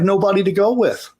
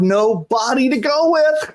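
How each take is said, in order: First: Nobody is run together as one word. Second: No and body are said as separate words. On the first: The speaker calls it wrong. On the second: The speaker calls it right.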